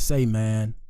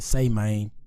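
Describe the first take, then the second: First: It is said in the speaker's usual accent. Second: It is said in a Texas accent.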